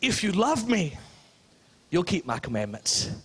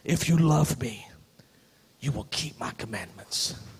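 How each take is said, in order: First: The line is said in a warm tone. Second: The line is said in a threatening tone. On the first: Obeying comes naturally from being loved. The speaker calls it right. "But that's not what he's saying" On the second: Love is demanded and must be earned by obeying. The speaker calls it wrong. "I'm going to go creepy again today"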